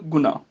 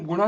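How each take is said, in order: First: ਗੁਣਾ said guna with plain n; dental n in ਗੁਣਾ. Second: ਗੁਣਾ with curled-tongue n; retroflex ਗੁਣਾ. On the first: Teacher giving the correction, ਗੁਣਾ with dental n. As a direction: keep the tongue forward for the n in ਗੁਣਾ. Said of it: "ਗੁਣਾ ਨਹੀਂ ਬੋਲਣਾ". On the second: Teacher showing the mistake, ਗੁਣਾ with retroflex n. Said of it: "ਇਹਨੂੰ ਗੁਣਾ ਨਹੀਂ ਬੋਲਣਾ". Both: Shown as a demonstration.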